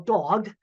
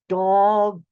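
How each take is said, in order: First: It is said at normal speed. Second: It is said slowly, each sound drawn out.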